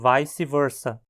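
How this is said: English-style, with diphthongized vowels. "numa área anglófona"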